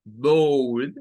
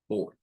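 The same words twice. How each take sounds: First: Board with a rounded ou glide, rising; Board, louder, ou vowel. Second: Board with a short clipped o; board glottal O. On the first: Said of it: "decirlo como board o como board". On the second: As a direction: board cut at the throat. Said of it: "stop glottal en la O". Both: Shown as a demonstration.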